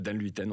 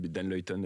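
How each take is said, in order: First: The surname is pronounced the French way. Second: The surname is pronounced the Dutch way. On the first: This is the Frenchified form used in France. "en France" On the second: This is the original form used in Belgium. "en Belgique"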